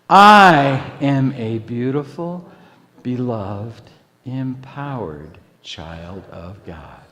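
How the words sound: The stress is on "I".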